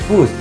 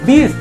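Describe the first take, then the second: First: The word has an 'u' vowel sound. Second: The word has an 'i' vowel sound. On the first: The speaker calls it right. "yang benarnya atau yang bakunya adalah bus" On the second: The speaker calls it wrong. "sering kita jumpai salah itu adalah kata bis ya"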